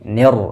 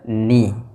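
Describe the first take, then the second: First: The i vowel is slanted and not pure. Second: The i vowel is a full, pure i. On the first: The speaker calls it wrong. "rawan menjadi miring dengan vokal i" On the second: The speaker calls it right. "harusnya ni"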